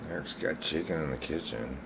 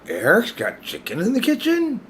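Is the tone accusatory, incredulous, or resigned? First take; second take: resigned; incredulous. First: It is said in a resigned tone. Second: It is said in a disbelieving tone.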